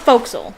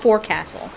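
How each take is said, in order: First: The word is said in its usual shortened form. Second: Every written part of the word is said fully. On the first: "It's pronounced Forecastle" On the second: "It's spelled Forecastle"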